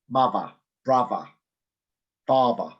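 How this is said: It is said in a London accent.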